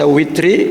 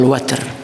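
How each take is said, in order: First: The first vowel is an 'i' sound. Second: The first vowel is an 'a' sound. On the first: "boleh dibaca witri bi, bi kasrah" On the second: "dan boleh dibaca fathah"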